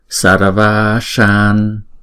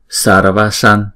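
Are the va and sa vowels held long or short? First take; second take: long; short. First: The va and sa vowels are held long. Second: The va and sa vowels are short. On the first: The speaker calls it right. "Chữ Va là chúng ta đọc hai nhịp và chữ Sa này chúng ta đọc hai nhịp" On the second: The speaker calls it wrong. "Chứ chúng ta không đọc là Sarvashan"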